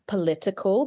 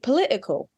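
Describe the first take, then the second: First: The middle t is a clear t sound. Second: The middle t is a glottal stop. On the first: "that t sound" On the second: "with a glottal stop"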